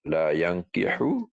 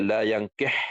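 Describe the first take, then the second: First: The final h is followed by an u vowel. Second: The final h is said with no vowel. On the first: "hu tu berbaris baris depan" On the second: "dengan iskan, ha, matikan"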